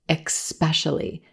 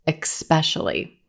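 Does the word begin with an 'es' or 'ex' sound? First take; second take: ex; ex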